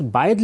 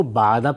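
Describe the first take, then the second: First: باعد said "baa'id", ending in -id; باعد with i before final d; original reading baa'id. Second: باعدہ said "baa'ada", open a ending; باعدہ with a vowels throughout; alternative reading baa'ada. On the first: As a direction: say باعد as "baa-id". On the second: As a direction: say باعدہ as "baa-a-da". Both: Shown as a demonstration. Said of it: "اس کو باعدہ پڑھنا بھی ممکن تھا".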